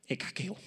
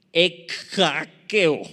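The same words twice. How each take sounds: First: Ekakeo, softer, ending on a questioning rise; unsure retry. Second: Ekakeo, slow and loud, each syllable drawn out; careful Greek word. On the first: Pastor retries Ekakeo doubtfully, shrugging to the congregation. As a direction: try Ekakeo again quietly, unsure. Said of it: "¿Quién sabe?". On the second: Pastor carefully tries the Greek word Ekakeo for the church. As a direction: sound out Ekakeo slowly, syllable by syllable. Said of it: "si la pronuncio mal". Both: Shown as a demonstration.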